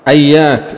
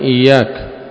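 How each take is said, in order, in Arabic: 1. تبدأ الكلمة بالصوت 'a'. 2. تبدأ الكلمة بالصوت 'i'. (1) "بفتح الهمزة وتشديد الياء" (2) "بتشديد الياء من إياك"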